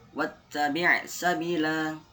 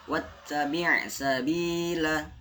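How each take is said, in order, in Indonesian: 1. Vokalnya dibaca pendek. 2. Vokalnya dibaca panjang dua ketukan. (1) "tidak boleh dibaca" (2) "dibaca panjang dua harokat"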